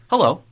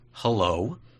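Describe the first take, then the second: First: The hello sounds eager and excited. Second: The hello sounds nervous and hesitant. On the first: The speaker is happy to see the other person. "like I'm really excited to see you" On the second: The speaker dreads the coming conversation. "I'm kind of scared to have this conversation with you"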